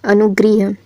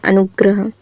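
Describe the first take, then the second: First: अनुग्रह said as 'anu-griya'; mispronounced word. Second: अनुग्रह said as 'anu-gra-ha'; short 'a' after 'gr' in अनुग्रह; corrected pronunciation. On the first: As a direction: put an 'i' after 'gr' in अनुग्रह. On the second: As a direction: say अनुग्रह with a clear 'gra'. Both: Shown as a demonstration. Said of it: "तो क्या होता है".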